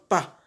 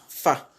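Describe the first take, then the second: First: The first sound is made with both lips. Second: The first sound uses lower lip against upper teeth. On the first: The speaker calls it wrong. "Quand on la prononce avec les deux lèvres" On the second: The speaker calls it right. "elle se prononce en joignant la face intérieure des lèvres de la lèvre inférieure avec et les incisives centrales"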